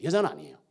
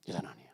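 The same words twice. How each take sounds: First: Said in the usual way. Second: 여자는 아니에요 much lower and softer; muttered aside. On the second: Shown as a demonstration. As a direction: throw away 여자는 아니에요 under the breath. (여자는 아니에요를 낮고 작게 혼잣말처럼)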